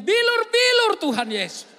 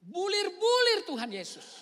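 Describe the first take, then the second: First: Bilur-bilur said slow and firm, bi-lur; the old woman's insistent Bilur-bilur, slow and loud; correct word. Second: Bulir-bulir said slow and drawn out, the mistaken word; wrong word. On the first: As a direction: stubbornly stress Bilur-bilur as bi-lur. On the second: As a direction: stretch out Bulir-bulir deliberately. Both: Retold or imitated. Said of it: "tidak jawab yang sama".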